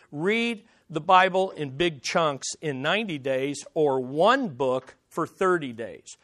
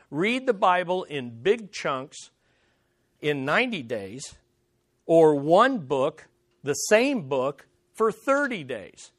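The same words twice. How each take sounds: First: Said in the usual way. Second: Slowly, phrase by phrase, with pauses between; deliberate repetition. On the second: Real, not acted. Preacher restating the reading challenge to the congregation, slow and deliberate. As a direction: spell out the instruction slowly for emphasis. Repeats the point slowly for emphasis.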